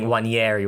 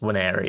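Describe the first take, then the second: First: The middle consonant is a palatal ny sound. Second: The middle consonant is a plain n sound. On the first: The speaker calls it wrong. "saying Wanyeri" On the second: The speaker calls it right. "when it's just Waneri"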